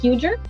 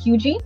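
First: The name is said the way it looks. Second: The name is said unlike its spelling. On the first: The speaker calls it wrong. "it looks like it's spelled Huger" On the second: The speaker calls it right. "but it's actually pronounced Huger"

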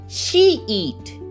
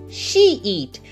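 The two takes are said the same way.

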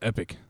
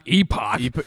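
First: The word ends with an 'ick' sound. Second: The word ends with an 'ock' sound. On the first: The speaker calls it right. "is pronounced epic" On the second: The speaker calls it wrong. "It's not epoch"

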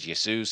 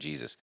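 First: The name begins with a Y sound. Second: The name begins with a J sound. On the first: "in Europe they pronounce the J's like a Y" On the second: "us Americans, we had to jack it up"

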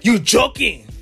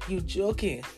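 First: It is said in an angry tone. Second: It is said in a sad tone.

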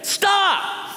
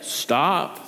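First: It is said as a sharp command. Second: It is said mildly, without command.

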